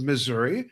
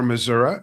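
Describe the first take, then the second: First: It is said in the general, outsider pronunciation. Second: It is said the way local residents pronounce it.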